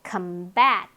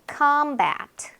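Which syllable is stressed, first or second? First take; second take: second; first. First: The stress is on the second syllable. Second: The stress is on the first syllable. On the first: It is a verb meaning to fight. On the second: It is a noun meaning combat.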